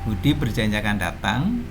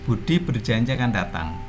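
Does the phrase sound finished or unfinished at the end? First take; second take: unfinished; finished. First: The ending sounds unfinished, as if more follows. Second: The ending sounds finished, like a complete statement. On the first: It is only a clause, not yet a sentence. "intonasinya begitu" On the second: It is a complete sentence. "karena sudah menjadi kalimat"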